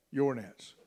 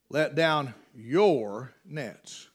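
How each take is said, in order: First: "Your" repeated quietly, stressed; a soft pointed "Your nets". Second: "your" leaned on, slow and low; slow stress on "your". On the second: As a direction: draw out "your nets" slowly. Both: Shown as a demonstration. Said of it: "put some emphasis on some words".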